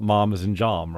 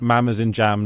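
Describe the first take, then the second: First: "mom" and "jam" with a long ah; mam said as mahm. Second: "mam" with the short vowel of "jam". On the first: Showing a friend the wrong way, long-ah "mom". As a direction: stretch "mom" and "jam" into posh ah vowels. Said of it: "not mom as in jam". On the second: Explaining the correct word to a friend, short-A "mam". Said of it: "everyone knows mam as in jam". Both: Shown as a demonstration.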